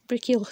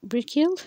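First: Brickhill settled with a falling end; Welsh word, confirmed. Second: Brickhill with a rising questioning end; Welsh word, first try. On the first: Learner settles on Brickhill with a falling end. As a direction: say Brickhill firmly, sure of it now. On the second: Learner checks Brickhill with a lift at the end. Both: Shown as a demonstration.

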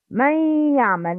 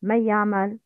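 First: من يعمل with the noon merged into ya, nasalized; correct pronunciation. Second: من يعمل fast, noon merged without gunna; wrong pronunciation. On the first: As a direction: model من يعمل with gunna. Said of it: "Please repeat after me". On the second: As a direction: show the error quickly, no nasal hum. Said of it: "But the wrong is". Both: Shown as a demonstration.

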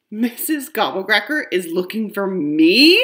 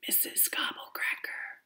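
First: Louder rising disbelief; can't believe it's about me; amazed. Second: Very soft, breathy whisper of Missus Gobblecracker. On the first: Acted. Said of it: "I ask in amazement". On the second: Shown as a demonstration. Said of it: "you have to whisper when you say her name".

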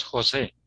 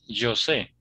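First: "José" said as "ho-SEH"; throaty H opening "José"; Spanish J. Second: "yo sé" as the name José with a voiced J; Brazilian pronunciation. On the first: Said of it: "en español sí existe José". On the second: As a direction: buzz the J: "zho-SEH" for "yo sé". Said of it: "Ahora ustedes dicen". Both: Shown as a demonstration.

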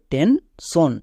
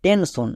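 First: Slow, careful টেনশন with a palatal sh sound (শ) in the middle; correct pronunciation. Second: The mistaken টেনশন, with a sharp dental s instead of sh; common wrong pronunciation. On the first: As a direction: say টেনশন slowly, with sh instead of a dental s. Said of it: "তাই এখানে তালিবস্য use করতে হবে". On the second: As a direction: say টেনশন with a dental s in the middle, as a hard স sound. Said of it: "অনেকে ভুল করে উচ্চারণ করে". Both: Shown as a demonstration.

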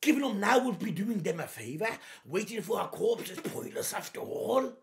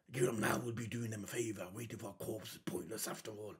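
First: Said in the usual way. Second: Much lower and fast, hammed-up villain; mock villain voice. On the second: Reactor parodying Lucci's taunt in a mock deep voice. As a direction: rattle it off in a mock-deep bad guy voice.

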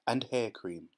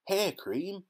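First: Said in the usual way. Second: Much higher, rising in disbelief; can't believe what he read; surprised cry. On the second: A narrator's reading. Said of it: "cried Mike Teavee".

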